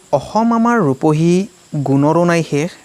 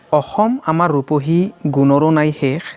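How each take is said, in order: Both takes have the same delivery.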